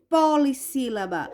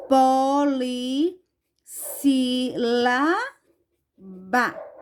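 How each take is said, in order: First: Said in the usual way. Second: Po-li-ssí-la-ba, very slow and drawn out; syllable by syllable. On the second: Shown as a demonstration. Teacher writing the answer for pupils, Polissílaba syllable by syllable. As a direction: stretch Polissílaba out in separate chunks. Word broken up as she writes.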